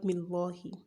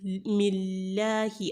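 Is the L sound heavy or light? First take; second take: heavy; light. First: The L is said heavy and full. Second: The L is said light and thin. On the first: The speaker calls it wrong. "and not Millahi" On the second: The speaker calls it right. "you would pronounce the word Allah lightly"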